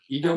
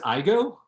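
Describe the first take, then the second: First: The name sounds like the word 'ego'. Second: The name sounds like the words 'I go'. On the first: The speaker calls it wrong. "no one ever pronounces my last name correctly" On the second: The speaker calls it right. "They say the show should be called I Go Everywhere"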